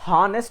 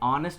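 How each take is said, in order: First: The word begins with an h sound. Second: The word begins with a vowel sound. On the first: The speaker calls it wrong. "హానెస్ట్ అనకుండా" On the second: The speaker calls it right. "ప్రాపర్గా ఆ వర్డ్ని ఆనెస్ట్ అని pronounce చేస్తారు"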